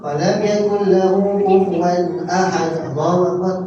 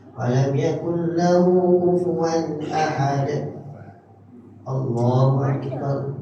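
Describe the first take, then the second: First: It is rushed with no pause between. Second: It is calm with a pause between.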